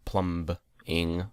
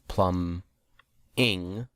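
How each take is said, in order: First: The word is said with a B sound. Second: The word is said with no B sound. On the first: The speaker calls it wrong. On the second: The speaker calls it right. "The B is silent"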